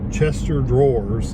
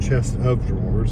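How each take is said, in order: First: The first part sounds like one word, 'Chester'. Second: The first part sounds like 'chest of'. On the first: Some people thought this was the correct form. The speaker calls it wrong. "Chester drawers instead of chest of drawers" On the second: This is the standard form. The speaker calls it right. "instead of chest of drawers"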